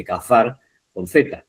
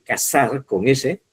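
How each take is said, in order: First: Cazar with a Castilian th sound; tongue between teeth on the z of cazar. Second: Cazar said with an s sound, as casar. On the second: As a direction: hiss the z of cazar as s. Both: Shown as a demonstration. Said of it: "No es lo mismo decir".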